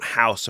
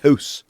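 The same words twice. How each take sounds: First: It is said with an American accent. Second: It is said with a Canadian accent.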